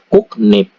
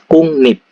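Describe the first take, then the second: First: The syllables join with a k then n sound. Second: The syllables join with an ng then n sound. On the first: "Kukrip dibaca kuknip" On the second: "ini dibaca kungnip"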